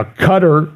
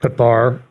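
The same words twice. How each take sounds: First: Qatar said KUT-er, stressed first syllable. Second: Qatar said ka-TAR, stress on TAR. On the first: Talk host trying Qatar as KUT-er. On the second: Talk host correcting himself, Qatar as ka-TAR. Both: Shown as a demonstration. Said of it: "however you wanna say it".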